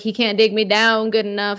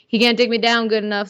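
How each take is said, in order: First: It is said in a put-on accent. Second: It is said in the speaker's normal accent. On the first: "I don't know why I said it with that accent" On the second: "let me say it again"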